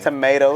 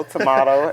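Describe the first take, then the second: First: "Tomato" said to-MAY-to, long ay vowel; tomayto. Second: "tomato" said to-MAH-to, broad ah vowel; tomahto. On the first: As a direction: say "Tomato" with the American ay sound. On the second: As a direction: say "tomato" with a British ah sound. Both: Shown as a demonstration. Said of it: "it's all the same".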